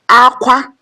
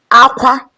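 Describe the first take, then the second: The two takes are said the same way.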